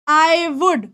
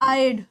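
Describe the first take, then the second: First: It is said as two full words. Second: It is said as one contracted syllable.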